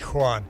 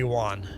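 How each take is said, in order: First: The name is said the way Brazilians say it. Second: The name is said with an American W sound. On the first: "In Brazil, I'd be" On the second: "In in the U S, I'd be"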